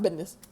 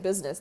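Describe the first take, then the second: First: The word is mumbled and poorly enunciated. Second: The word is said clearly and fully enunciated. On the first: The speaker calls it wrong. "and then I went business" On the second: The speaker calls it right. "I was properly trying to say business"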